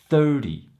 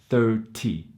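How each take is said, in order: First: The middle consonant is a soft d sound. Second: The middle consonant is a clear t sound. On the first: "What you will actually hear is a dy sound" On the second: "it's the ty sound at the end, which should sound like thirty"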